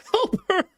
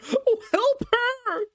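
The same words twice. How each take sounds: First: High, louder plea on help; frantic plea. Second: High, slow, breaking plea; drawn-out plea. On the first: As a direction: cry out for his wife. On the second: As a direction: stretch out the desperate help. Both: Acted. Harker begging wildly.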